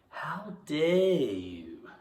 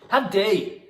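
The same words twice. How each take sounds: First: It is drawn out slowly and lightly. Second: It is punched out sharply and forcefully.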